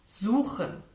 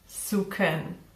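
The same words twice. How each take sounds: First: The middle consonant is a raspy sound. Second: The middle consonant is a K. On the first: The speaker calls it right. "a very hard sound produced in the back of your mouth" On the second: The speaker calls it wrong. "simply pronounce it as K"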